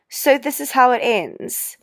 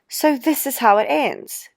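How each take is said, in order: The two takes are said the same way.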